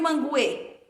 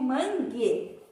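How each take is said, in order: First: A 'w' sound is heard after the G. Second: No 'w' sound is heard after the G. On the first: The speaker calls it wrong. "ou eu digo manguê?" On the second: The speaker calls it right. "Não pronuncio, porque eu digo mangue"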